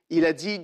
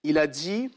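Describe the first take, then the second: No difference in how they are said.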